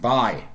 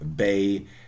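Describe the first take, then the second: First: The vowel is shifted, sounding like buy. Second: It has the standard RP vowel.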